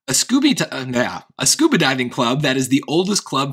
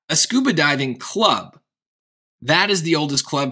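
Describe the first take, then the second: First: There is no pause after the word club. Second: There is a pause after the word club. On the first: The speaker calls it right. "Let's try without it" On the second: The speaker calls it wrong. "adding that pause there, that break as in B and C, it just seems weird"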